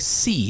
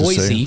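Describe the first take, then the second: First: The middle consonant is an S sound. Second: The middle consonant is a Z sound. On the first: The speaker calls it right. "Boise wants it with an S" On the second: The speaker calls it wrong.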